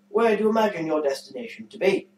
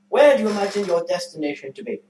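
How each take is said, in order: First: It is read in an affected, put-on voice. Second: It is read in an ordinary speaking voice. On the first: "Can you stop doing it like that?" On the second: "I will read it in my normal voice"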